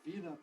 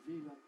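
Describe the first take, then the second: Both takes have the same delivery.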